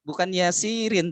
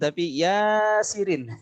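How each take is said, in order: First: The first vowel is said short. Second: The first vowel is said long. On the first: The speaker calls it wrong. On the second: The speaker calls it right. "ya-nya yang panjang"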